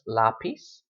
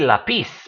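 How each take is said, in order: First: The stress is on the first syllable. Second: The stress is on the last syllable. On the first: The speaker calls it right. "It's lápiz" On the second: The speaker calls it wrong. "really should be lápiz, but nobody says that"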